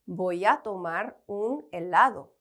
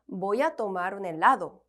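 First: The sentence is said slowly, word by word. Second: The sentence is said faster, words running together.

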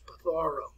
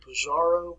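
First: The middle consonant is a th sound. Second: The middle consonant is a z sound. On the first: The speaker calls it right. "Put a little TH pronunciation where the Z is" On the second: The speaker calls it wrong. "Let's not pronounce it Pizarro"

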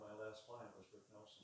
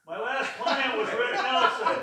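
First: It is said at a soft volume. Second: It is said very loudly.

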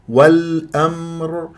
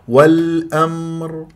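No difference in how they are said.

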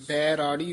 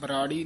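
First: The first syllable has a long 'ai' vowel. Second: The first syllable has a short 'a' vowel. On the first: The speaker calls it right. "ਇਹ ਰਾਗ ਬੈਰਾੜੀ ਉਚਾਰਨ ਕਰਨਾ" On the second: The speaker calls it wrong. "ਬਰਾੜੀ ਨਹੀਂ ਕਹਿਣਾ"

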